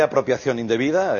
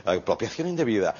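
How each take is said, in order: First: Said in the usual way. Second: Softer, lower, mock-refined aside; understated mock elegance; refined legal term. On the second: Shown as a demonstration. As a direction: say it delicately, as fancy court language. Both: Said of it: "que queda muy fino".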